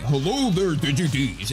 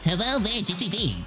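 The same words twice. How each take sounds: First: The voice sounds deep and full. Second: The voice sounds thin and nasal. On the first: This is how the phone makes the voice sound. The speaker calls it right. "it would go from like my phone" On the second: This is how the recording microphone makes the voice sound. The speaker calls it wrong. "a lot more nasally than it really is"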